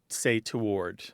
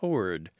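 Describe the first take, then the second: First: It is two syllables with a w sound. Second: It is one syllable with no w sound. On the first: This is how most people say it. "They pronounce the W. It's two syllables, not one" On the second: This is the older, more formal pronunciation. "classic, maybe even elitist pronunciation is"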